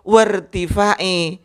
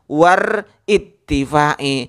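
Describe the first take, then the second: First: War joins directly to tifa with no extra syllable. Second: An extra it syllable comes between war and tifa. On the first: The speaker calls it right. "Yang betul" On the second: The speaker calls it wrong.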